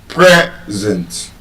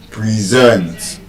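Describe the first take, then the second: First: PRE-zent, short e in a stressed first syllable of Present. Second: Pree-ZENT, long ee then stressed end of Present; stress on second syllable. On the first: Teacher pronouncing the noun, first-syllable stress. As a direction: Present split slowly, beat on PRE. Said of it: "as a noun". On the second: Teacher pronouncing the verb, second-syllable stress. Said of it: "a verb". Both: Shown as a demonstration.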